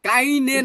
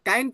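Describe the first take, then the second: First: The word ends with an extra vowel syllable. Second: The word ends without any extra vowel. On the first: The speaker calls it wrong. "কাইনে না" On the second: The speaker calls it right. "কাইন প্রবলেম"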